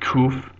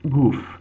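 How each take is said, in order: First: It starts with a plain K sound. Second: It starts with a G sound. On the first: "not kuf" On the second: "pronounce this as even a G sound"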